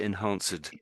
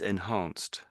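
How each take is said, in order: First: The ending is an extra 'ed' syllable. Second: The ending is a short t sound. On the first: The speaker calls it wrong. "Not actually enhanced" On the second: The speaker calls it right. "it gets pronounced like a t in this case"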